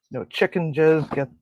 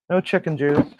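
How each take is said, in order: First: "jizz" said by mistake for juice; slip of the tongue. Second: "juice" said clearly, correcting the slip; corrected. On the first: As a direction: blurt "jizz" then catch it. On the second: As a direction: say "juice" carefully, fixing it. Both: Real, not acted. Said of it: "juice, I mean, not jizz".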